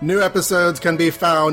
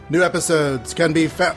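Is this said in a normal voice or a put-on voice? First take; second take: put-on; normal. First: It is said in a special put-on voice. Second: It is said in his normal speaking voice.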